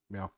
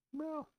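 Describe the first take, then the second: First: Said in the usual way. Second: High, tiny cat meow for a mic test; testing the mic with a high mock meow; squeaky cat meow. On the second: Shown as a demonstration. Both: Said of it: "Is that better?".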